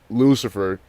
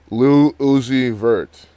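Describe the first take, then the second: First: The name is said quickly, syllables run together. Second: The name is said slowly, syllables kept apart. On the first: The speaker calls it wrong. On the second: The speaker calls it right.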